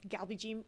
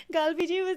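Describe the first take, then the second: First: Galbijim said the American way, flat "kal-bee-jim"; American accent pronunciation. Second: Galbijim retried with an open "kahl-bee" start; corrected pronunciation. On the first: Real, not acted. Apologizing to viewers for her American accent, Galbijim anglicized. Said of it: "sorry, my American accent". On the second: Shown as a demonstration. Correcting herself for viewers, Galbijim said properly. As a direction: say Galbijim more the Korean way, stressed and louder. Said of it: "my American accent".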